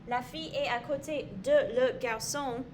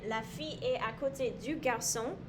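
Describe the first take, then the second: First: De and le are said as two separate words. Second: De and le merge into the single word du. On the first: The speaker calls it wrong. "it sounds very choppy and it doesn't sound very nice together" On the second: The speaker calls it right. "everything flows very nicely together and sounds very pretty"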